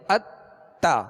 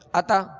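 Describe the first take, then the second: First: The middle consonant is held double length. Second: The middle consonant is short and single. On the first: The speaker calls it right. "तो ये दोहरा पढ़ा गया, यानी दो हर्फ की देर लगेगी" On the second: The speaker calls it wrong. "अगर अता कहेंगे तो ये फिर जो है सही तशदीद अदा नहीं होगी"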